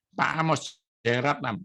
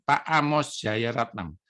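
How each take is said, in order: First: Said in the usual way. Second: Pak Amos Jaya Ratnam said slowly, each part of the name weighed, stress on Amos; slow down and lean on Amos in Pak Amos Jaya Ratnam; name spelled out slowly. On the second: Shown as a demonstration. Preacher making the congregation remember his mentor's name, slowly. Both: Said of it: "Kalau Anda dengar nama ini".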